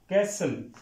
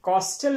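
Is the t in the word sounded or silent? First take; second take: silent; sounded. First: The t is silent in the middle. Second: The t is sounded in the middle. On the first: The speaker calls it right. "यहां पे टी silent होगा" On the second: The speaker calls it wrong. "कॉस्टल नहीं पढ़ते इसको"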